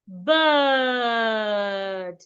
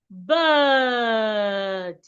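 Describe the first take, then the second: Both takes have the same delivery.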